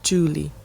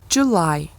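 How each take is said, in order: First: The word ends with an 'ee' sound. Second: The word ends with an 'eye' sound. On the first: It is the name of a person or pet. The speaker calls it wrong. "e não Julie" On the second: It is a month of the year. The speaker calls it right. "então a gente pronuncia July"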